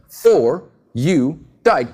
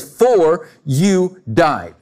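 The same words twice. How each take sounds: First: "For you died" very slow, weight landing on "died"; slow, deliberate stress on "died"; slow emphasis on died. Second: "For you died" said very slowly, each word weighted; slow, deliberate stress on "For you died"; slow emphatic statement. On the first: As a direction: lean hard on "died" as past tense. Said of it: "That's a statement. Past tense". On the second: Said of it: "He makes a statement". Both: Shown as a demonstration.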